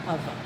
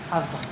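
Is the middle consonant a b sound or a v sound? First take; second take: v; v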